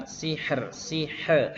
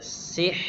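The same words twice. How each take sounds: First: "sihr" with the r tapped and bounced off at the end; "sihr" with a rebounding final r, the way not to say it; bouncing r. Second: "Sihr" with the final r held smooth, no bounce; "Sihr" with a steady r and a light breath after; flowing r. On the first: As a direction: show the bouncing r of "sihr" as the mistake. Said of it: "he itu kan mantul ya". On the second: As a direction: let the r of "Sihr" flow out gently. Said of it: "Tapi dialirkan saja". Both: Shown as a demonstration.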